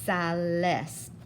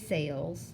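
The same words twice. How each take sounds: First: It is said as two Spanish syllables. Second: It is said as one English-sounding syllable. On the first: The speaker calls it right. "So tú is sales" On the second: The speaker calls it wrong. "Please don't say sales"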